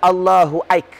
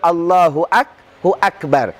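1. Kata kedua terdengar seperti 'aik'. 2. Kata kedua diucapkan lengkap sebagai 'akbar'. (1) "Jangan dibaca Allahu Aik" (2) "Bahkan perlu kita baca Allahu Akbar"

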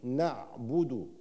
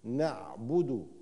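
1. حرف الباء يحمل حركة 'u' مدورة. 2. حرف الباء يحمل حركة 'u' مدورة.

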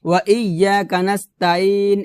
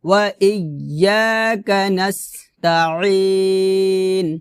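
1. 'ain' একটি সাধারণ স্বরধ্বনি, গলায় কোনো চাপ নেই। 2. 'ain' গলার মাঝখান থেকে চাপ দিয়ে বের করা হয়। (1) "এখানে আমরা ওয়া ইয়াকা নাস্তাইন এভাবে বলি, তাইন বলি, তাইন হবে না" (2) "গলার মাঝখান থেকে চাপ দিয়ে উচ্চারণটা নিয়ে আসতে হবে"

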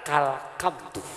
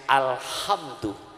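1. Kata itu diawali k dan k keras. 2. Kata itu diawali vokal dan h lembut. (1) "dia kedengeran kalkamdu" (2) "yang mestinya alhamdu"

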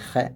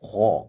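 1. ശബ്ദം നേർത്തതും ലഘുവുമാണ്. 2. ശബ്ദം കട്ടിയും ഭാരമുള്ളതുമാണ്. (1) "നമ്മൾ ഹ എന്നല്ല" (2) "വായ നിറച്ച് പറയാണ്"

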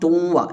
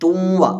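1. n, ഇരട്ടിച്ച മൂക്കൊലി ചേർന്ന w യിൽ ലയിക്കുന്നു. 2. n, ഇരട്ടിച്ച മൂക്കൊലി ചേർന്ന w യിൽ ലയിക്കുന്നു.

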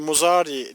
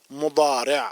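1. Ortadaki ünsüz düz bir z sesidir. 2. Ortadaki ünsüz vurgulu bir d sesidir. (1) "Araplar bunu telaffuz ederken mazi, muzari diye ifade etmezler" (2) "Madi, mudari şeklinde telaffuz ederler"

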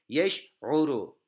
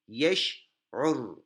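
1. Kelime sonunda u ünlüsü vardır. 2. Kelime r ünsüzü ile biter. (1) "Şimdi okuyorum" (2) "Sondaki harfi dammesini okumadım"

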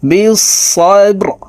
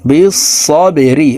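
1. শব্দটি খালি r দিয়ে শেষ হয়, কোনো স্বরবর্ণ নেই। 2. চূড়ান্ত r-এর পরে একটি হ্রস্ব i আছে। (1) "রকে ওয়াকফের ক্ষেত্রে সাকিন করে ফেলব" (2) "র জের রি"

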